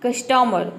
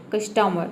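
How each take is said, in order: First: कस्टमर ending with a clear r; r sounded demo. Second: कस्टमर ending on a soft open vowel, r dropped; silent r demo. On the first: Teacher demonstrates कस्टमर with the r sounded. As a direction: say कस्टमर with the final r pronounced. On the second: Teacher demonstrates कस्टमर with the r left silent. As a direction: say कस्टमर softly, no final r. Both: Shown as a demonstration. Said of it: "जब आप आर को silent रखेंगे".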